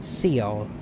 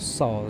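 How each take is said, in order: First: The e vowel is sounded in the word. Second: The e vowel is not sounded in the word. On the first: The speaker calls it wrong. "I keep pronouncing it Seoul for whatever reason" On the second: The speaker calls it right. "Seoul is how it's actually pronounced"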